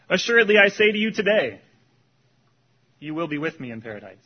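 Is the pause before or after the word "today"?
after. The pause comes after the word today.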